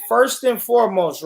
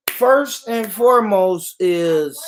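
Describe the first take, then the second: First: Said in the usual way. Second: Drawn out slowly, restating; slow restart. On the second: Shown as a demonstration. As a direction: say it again slowly for emphasis. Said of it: "First and foremost, right?".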